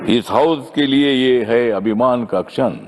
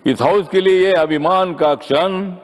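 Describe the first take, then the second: First: Said in the usual way. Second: Higher-pitched, declaimed couplet line; raised rhetorical repeat. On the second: Real, not acted. Member hails the new chairman's proud moment in the House, raised declamation. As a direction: lift the whole line up as a proud refrain.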